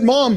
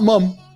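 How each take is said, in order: First: The vowel is an open 'ah' sound. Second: The vowel is a short 'uh' sound. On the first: The speaker calls it right. "I said mom" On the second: The speaker calls it wrong. "not mum"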